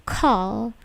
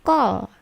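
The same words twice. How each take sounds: First: "Call" with a puff of air after the K; airy burst opening "Call"; plosive K. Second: "call" with no puff, close to "gol"; unaspirated G-like start on "call"; wrong non-plosive K. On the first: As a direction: say "Call" with a crisp aspirated K. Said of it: "K-nya itu plosif". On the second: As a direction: say "call" with the K softened toward G. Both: Shown as a demonstration.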